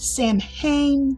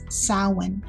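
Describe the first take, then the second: First: The word is sounded out as spelled. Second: The word is said with some letters silent. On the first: The speaker calls it wrong. "You may see people pronounce it Samhain. That is incorrect" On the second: The speaker calls it right. "It is Samhain"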